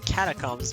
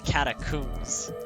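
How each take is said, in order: First: It is said with an American pronunciation. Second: It is said with a British pronunciation. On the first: "In the U S, you would say catacombs" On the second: "in British, you would say catacombs"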